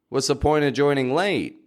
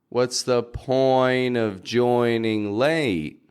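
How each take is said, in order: First: It is spoken quickly at conversational speed. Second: It is spoken slowly and very clearly. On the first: "The second time will be quicker" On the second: "The first time we'll have very clear and slowed down pronunciation"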